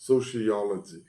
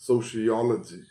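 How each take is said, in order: No difference in how they are said.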